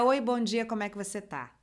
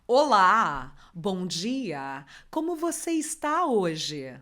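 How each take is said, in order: First: It is said in a natural everyday voice. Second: It is said in a put-on, formal announcer voice.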